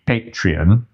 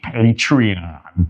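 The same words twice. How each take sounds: First: Patreon with a plain ee-on ending; English pronunciation. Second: Patreon slow, in a put-on American accent with a broad a at the end. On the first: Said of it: "So in English". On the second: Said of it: "And in American English". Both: Shown as a demonstration.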